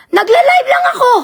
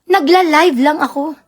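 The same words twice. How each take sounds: First: Angry shout. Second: Said in the usual way. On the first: Real, not acted. Shouting at the woman who accused her. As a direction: yell it back at the accuser. Ranting about being accused.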